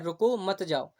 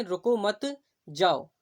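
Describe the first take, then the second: First: रुको set apart, मत जाओ joined; brief break after रुको, then मत जाओ as one; pause after रुको. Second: Slow रुको मत, a clear break, then जाओ; pause after मत. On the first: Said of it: "यहाँ पर आपको जाने की अनुमति नहीं है". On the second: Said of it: "आपको जाने की अनुमति है". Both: Shown as a demonstration.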